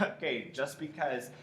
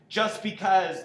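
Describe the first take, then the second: First: Tossed off. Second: Loud, high, over-the-top outburst; a hundred percent. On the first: Director showing actor the calmer start, tossed off. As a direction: toss it off casually with a little laugh. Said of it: "It can still be that toss of". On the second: Director showing actor what not to do, full-blast outburst. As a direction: jump straight to full intensity. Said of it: "don't jump to a hundred percent on". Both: Shown as a demonstration.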